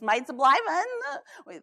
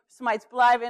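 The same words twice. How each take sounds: First: It is said in a comic put-on voice. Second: It is said in the speaker's normal voice.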